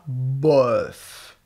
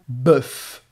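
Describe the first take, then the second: First: The vowel starts with o then eu. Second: The vowel is a single eu sound. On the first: The speaker calls it wrong. "Tu dis pas boeuf" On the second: The speaker calls it right. "tu le dis bœuf, comme si c'était E U"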